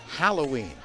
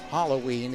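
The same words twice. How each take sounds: First: The first syllable has an 'a' vowel, 'hal'. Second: The first syllable has an 'o' vowel, 'hol'. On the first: The speaker calls it right. "H A, not H O" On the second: The speaker calls it wrong. "It's not Halloween"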